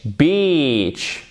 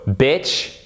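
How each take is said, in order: First: "beach" with long drawn-out EE, falling; long vowel drill. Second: "bitch" with short ih, rising; short vowel drill. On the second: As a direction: say "bitch" short, as first of a pair. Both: Shown as a demonstration. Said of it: "ces trois couples de mots".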